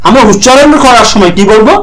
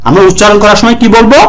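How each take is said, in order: Both takes have the same delivery.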